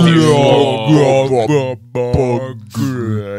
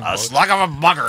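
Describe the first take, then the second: First: It is said slowly and drawn out. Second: It is said at normal speed.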